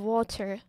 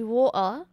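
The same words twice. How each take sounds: First: The middle t sound is pronounced. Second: The middle t sound is dropped. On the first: "instead of water" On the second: "why do the British say water"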